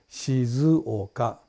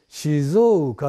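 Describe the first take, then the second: First: The middle 'zuo' sounds are said separately. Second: The middle 'zuo' sounds merge into one vowel. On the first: "正しい発音は静岡。" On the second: "静岡って言うんですよ。図王がおうになっちゃうんですね。"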